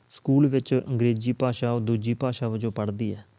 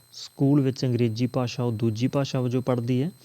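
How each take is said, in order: Both takes have the same delivery.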